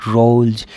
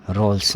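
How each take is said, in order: First: रोल्स said as "rolj"; voiced j ending. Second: रोल्स ending in a hissed s; wrong s ending. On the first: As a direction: end रोल्स on a buzzed j. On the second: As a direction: close रोल्स on a plain unvoiced s. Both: Shown as a demonstration. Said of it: "नहीं".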